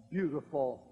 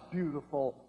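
No difference in how they are said.

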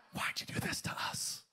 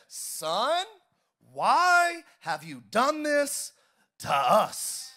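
First: Whisper. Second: Anxious mother. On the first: Parent's question, whispered. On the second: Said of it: "And his mother said". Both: Acted.

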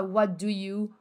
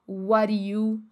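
First: "What do you" as "wa doo you"; clear-D variant. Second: "what do you" run together as "wari you"; linked, tapped variant. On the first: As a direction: drop the T but keep a full D in "do". ("do" com D claro, sem o T de "What") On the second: ("what do you" ligado, soando "uári iú") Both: Shown as a demonstration. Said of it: "você pode falar".

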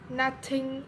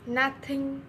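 Both takes have the same delivery.

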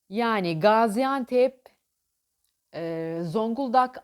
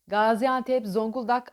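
First: Gaziantep and Zonguldak drawn out slowly, each syllable clear; slow, clear city names. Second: Said in the usual way. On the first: Shown as a demonstration. Coach slowly spelling out city name clusters. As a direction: stretch out Gaziantep to show gz.

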